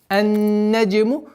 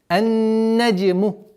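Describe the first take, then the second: Both takes have the same delivery.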